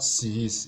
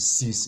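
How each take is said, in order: First: Sis broken into two beats, si-is; two syllables. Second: Sys said as a single beat with one short vowel; one syllable. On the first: Teacher showing what to avoid, sis as two syllables si-is. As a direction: stretch sis with a second vowel pulse, si-is. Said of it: "It's not sis". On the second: Teacher showing the correct last part, sys as one syllable. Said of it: "It's only one syllable that is there". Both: Shown as a demonstration.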